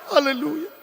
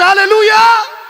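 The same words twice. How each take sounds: First: Said in the usual way. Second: A full, high shout of praise; shouted hallelujah. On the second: Real, not acted. Preacher crying out to the congregation, ecstatic shout. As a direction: throw the hallelujah up to the rafters.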